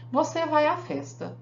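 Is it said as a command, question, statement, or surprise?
statement. It is said as a flat declarative statement. The speaker asserts that the listener is going. "É uma declaração. Eu afirmei"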